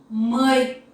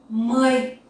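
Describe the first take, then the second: The two takes are said the same way.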